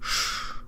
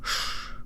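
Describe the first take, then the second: First: The sh is made with a low, back tongue. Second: The sh is made with a low, back tongue.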